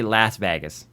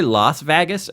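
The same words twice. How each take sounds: First: LAS with the A of "lass" before VEGAS with short A; alternative pronunciation. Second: LAS said as "loss" before VEGAS with a short A; mimicked pronunciation. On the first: Retold or imitated. Host offering the other option, alternative pronunciation. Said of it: "do you say Las Vegas or". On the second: Host asking how friend says it, mimicked pronunciation. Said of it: "or do you say Las Vegas".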